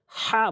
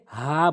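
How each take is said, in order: First: "হা" with a harsher, rasped h; wrong "হা". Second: "হা" from the start of the throat; a long, clean "হা" breathed from the throat. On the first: Teacher shows learners what not to say, harshly rasped "হা". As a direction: rasp the h of "হা" as a faulty example. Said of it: "হা বলা যাবে না". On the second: Teacher shows learners the correct letter, "হা" from the throat's start. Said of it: "হলকের শুরু থেকে হা বলতে হয়". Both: Shown as a demonstration.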